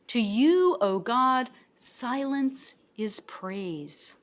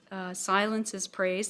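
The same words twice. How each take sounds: First: Slow, weighty reading with "silence" drawn out; slow scripture reading. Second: Said in the usual way. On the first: Acted. Reading Psalm sixty-five to the class, slow and solemn. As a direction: linger on "silence is praise" as a solemn quote.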